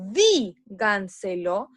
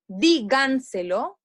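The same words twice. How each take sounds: First: "díganselo" with a long, strong DI, then gan-selo; slow DI-gan-selo, opening syllable of "díganselo" emphasized; stress on first syllable. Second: "díganselo" slowly, leaning on GAN: di-GAN-selo; trial stress placement. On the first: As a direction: hit and hold the DI of "díganselo". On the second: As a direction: test "díganselo" with the weight on its second syllable. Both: Shown as a demonstration. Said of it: "en qué sílaba yo acentúo la voz".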